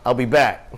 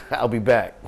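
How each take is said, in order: First: A hint of a different voice, firm and plain, no laughter; brisk parting line as the friend; lightly voiced friend. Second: Laughing quote. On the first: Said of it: "He said". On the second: Retold or imitated. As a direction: let the laugh break into it. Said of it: "Gopal said".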